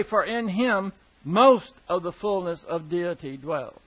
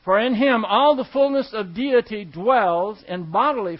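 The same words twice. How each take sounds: First: "most" stressed as the wrong word in the verse. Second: "all" punched loud in a verse reading; stress on all. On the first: Preacher showing what the verse does not say, stress on "most". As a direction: misquote the verse, leaning on "most". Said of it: "It does not say". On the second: Preacher reading the new verse to the congregation, stress on "all". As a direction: read out the verse, leaning hard on "all". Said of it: "I really want to emphasize that". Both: Shown as a demonstration.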